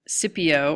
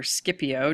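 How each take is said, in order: First: Scipio with a silent c, "SIP-ee-oh"; soft-c pronunciation. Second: Scipio with a hard c, "SKIP-ee-oh"; hard-c pronunciation. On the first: History teacher offering one way to say the general's name, Scipio as "SIP-ee-oh". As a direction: say Scipio starting with a plain s sound, no k. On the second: History teacher offering the other way to say the general's name, Scipio as "SKIP-ee-oh". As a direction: say Scipio starting with an sk sound. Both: Shown as a demonstration. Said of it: "depending on who's pronouncing it".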